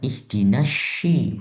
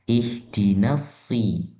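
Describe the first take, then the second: First: The s is not a plain s sound. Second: The s is a plain, clear s sound. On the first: The speaker calls it wrong. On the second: The speaker calls it right. "S biasa"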